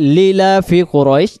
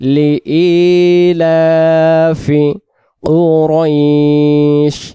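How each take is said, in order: First: The 'i' after 'li' is dropped and merged. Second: A separate 'i' is heard after 'li'. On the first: The speaker calls it wrong. "তখন ইয়া অক্ষরটা এখানে বাদ যাচ্ছে" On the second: The speaker calls it right. "তাহলে আমরা উচ্চারণটা করব লি ইলাফি"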